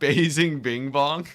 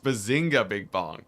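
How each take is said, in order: First: The first word ends without an 'a' sound. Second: The first word ends with an 'a' sound. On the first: The speaker calls it wrong. "My bad. I said I said Basing Bing Bong" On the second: The speaker calls it right. "It's it's it's Bazinga Big Bong"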